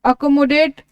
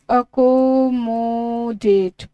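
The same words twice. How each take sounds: First: Said in the usual way. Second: accommodate stretched very slowly, syllable by syllable; accommodate said slow and sustained, every vowel held long; drawn-out pronunciation. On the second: Shown as a demonstration. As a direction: draw out each syllable of accommodate for dictation. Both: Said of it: "pronunciation बहुत ज़रूरी है".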